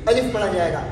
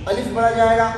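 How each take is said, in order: No difference in how they are said.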